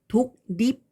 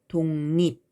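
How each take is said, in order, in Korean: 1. 각 글자가 k와 l 소리로 나요. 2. ng와 n 소리로 나요. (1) "정확히 음가를 다 살려서 발음하면" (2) "최종적으로 발음은 독립 이렇게 발음이 되는 거죠"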